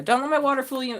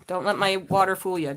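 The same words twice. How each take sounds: First: My pushed up and leaned on; stress on my. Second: Said in the usual way. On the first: Shown as a demonstration. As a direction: land on the word "my" in "Don't let my water fool you". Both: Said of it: "repeats with stress".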